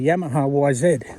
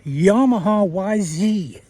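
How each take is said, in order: First: It is said with an Australian accent. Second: It is said with an American accent.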